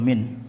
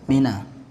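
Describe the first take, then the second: First: The word ends on n with no vowel. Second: The n is followed by an a vowel. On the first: No word with the article follows. "dibaca sukun min" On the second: A word with the article follows. "nanti bisa dibaca mina"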